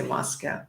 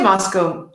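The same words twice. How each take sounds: First: Moscow ending in "ow", like cow; MOSS-cow pronunciation. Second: Moscow ending in a long "oh"; MOSS-coh pronunciation. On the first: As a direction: rhyme the end of "Moscow" with "now". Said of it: "you would say Moscow". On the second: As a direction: rhyme the end of "Moscow" with "go". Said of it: "you could say Moscow". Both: Shown as a demonstration.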